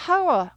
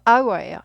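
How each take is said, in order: First: "hour" wrongly begun with an audible h, like "how-er"; H sounded. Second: "hour" begun on the vowel, like "our"; silent H. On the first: Teacher giving the form to avoid, H sounded. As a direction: put a clear h on the front of "hour". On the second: Teacher correcting to the right form, silent H. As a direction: leave the h off "hour" completely. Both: Shown as a demonstration. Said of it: "H를 묵음".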